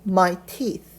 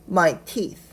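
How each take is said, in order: No difference in how they are said.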